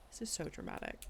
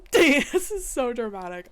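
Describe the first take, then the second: First: Whispered, dropped aside; quiet aside. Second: Laughing, louder and higher; laughing exclamation. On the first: Judge remarking on the dramatic report, whispered. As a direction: breathe it almost voicelessly. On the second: Judge laughing loudly at the dramatic case report. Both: Real, not acted.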